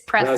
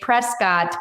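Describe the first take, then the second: First: It is pronounced the way locals say it. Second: It is pronounced the way outsiders say it. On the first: The speaker is from the area. The speaker calls it right. "It's Prescott" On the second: The speaker is not from the area. The speaker calls it wrong. "when people say Prescott, we know they're not local"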